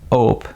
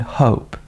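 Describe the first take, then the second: First: The word starts without an H sound. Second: The word starts with an H sound. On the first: It sounds like nothing, or like a different word. The speaker calls it wrong. "when you have this H sound and you do not say it" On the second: It is the intended word. The speaker calls it right. "you haven't said hope"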